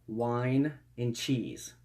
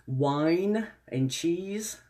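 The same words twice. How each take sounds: First: Said in the usual way. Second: Savoring. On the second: Shown as a demonstration. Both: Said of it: "repeated in two ways".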